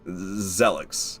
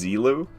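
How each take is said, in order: First: The name is pronounced like the word jealous. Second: The name is pronounced unlike the word jealous. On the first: The speaker calls it wrong. "I thought it was pronounced like jealous" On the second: The speaker calls it right. "oh, it's Zelu, not Zelix"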